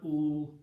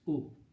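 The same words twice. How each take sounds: First: The vowel is stretched out long. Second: The vowel is kept very short. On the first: The speaker calls it wrong. "it's not ooh" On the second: The speaker calls it right. "Very short"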